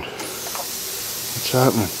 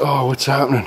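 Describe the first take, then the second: First: Whispered very slowly, under the breath. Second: Said in the usual way. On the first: Real, not acted. Wondering at the cutter in a slow whisper. Repeats line, second drawn out.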